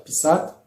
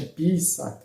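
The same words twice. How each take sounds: First: "pisat" with the accent on "sat"; stress on second syllable. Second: "pisat" with a stretched, stressed "pi"; stress on first syllable. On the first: Teacher gives the original word, "pisat" stressed at the end. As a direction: lean on the last syllable of "pisat". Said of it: "au lieu de dire pisat". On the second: Teacher shows what one obtains, "pisat" stressed on "pi". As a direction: slowly lengthen the start of "pisat". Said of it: "on obtient pisat". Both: Shown as a demonstration.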